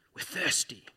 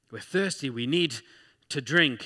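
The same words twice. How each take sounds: First: Lightly voiced grumbling crowd; complaining Israelites. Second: Lightly whiny plea, rising at the end; a mild mock whine of thirst; complaining Israelites.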